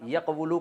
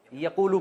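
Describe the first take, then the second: First: Said in the usual way. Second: یقولو with the و as a long oo; contracted pronunciation. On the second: Shown as a demonstration. Teacher showing how the verb is read, یقولو contracted to a long oo. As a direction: glide through یقولو as ya-qoo-loo, no w sound. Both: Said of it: "یقبلو کو یقولو پڑھتے ہیں".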